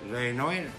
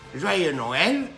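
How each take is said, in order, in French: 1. Ce souhait sonne plat et morose. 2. Ce souhait sonne lumineux et joyeux. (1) "Et si tu es positif" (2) "c'est juste l'intonation qui va changer. Si tu es négatif"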